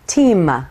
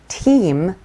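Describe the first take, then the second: First: A short vowel sound follows the final m. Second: The word ends cleanly on the m sound.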